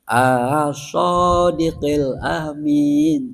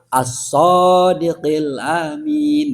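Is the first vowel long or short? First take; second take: long; short. First: The opening vowel is drawn out long. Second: The opening vowel is kept short. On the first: It turns the phrase into a question. The speaker calls it wrong. "Nggak boleh. Alif jadi baca panjang" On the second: It states that he is the truthful, trusted one. The speaker calls it right. "Yang betul"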